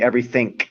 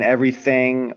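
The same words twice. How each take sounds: First: The word ends with a K sound. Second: The word ends with a G sound. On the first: "you say everything" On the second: "instead of saying everything"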